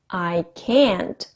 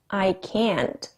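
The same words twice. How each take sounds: First: The word can't is said loudly and forcefully. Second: The word can't is said plainly, without extra force. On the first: "발음도 세게 해보고" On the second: "마지막에는 별로 모션은 취하지 않고 발음만 해봤어요"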